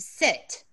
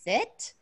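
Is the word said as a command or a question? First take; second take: command; question. First: It is said firmly as a command. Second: It is said lightly as a question. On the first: The dog is ordered to sit. "It feels like I command you to sit" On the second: The dog is asked to sit. "when you're asking a question like sit"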